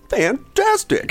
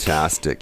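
First: It sounds genuinely happy and pleased. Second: It sounds sarcastic, with a dropping tone.

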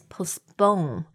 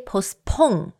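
First: The second p sounds soft, close to b. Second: The second p is a strong, aspirated p. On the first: The speaker calls it right. "还有发音的一个重点是第二个P，就是一个比较像B 的音。" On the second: The speaker calls it wrong. "We don't say postpone, right?"

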